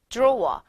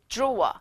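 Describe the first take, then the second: Both takes have the same delivery.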